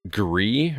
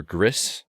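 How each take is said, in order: First: Gris said as "gree"; silent final S. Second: Gris said as "griss"; sounded final S. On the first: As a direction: say Gris with no S at the end, questioning. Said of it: "I assume it's pronounced Gris". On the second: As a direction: say Gris with a short vowel and audible S, questioning. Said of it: "or Gris". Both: Shown as a demonstration.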